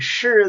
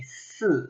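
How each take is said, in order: First: "shi" with the tongue curled back, retroflex sh; northern shi. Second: "si" with a flat s, tongue relaxed; southern si. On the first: Teaching the northern "shi" to learners, tongue curled back. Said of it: "the further south you go, it'll sound more like a". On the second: Showing learners the southern accent, flat s. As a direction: say "si" like a southern speaker, no curl. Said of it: "it'll sound more like a". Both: Shown as a demonstration.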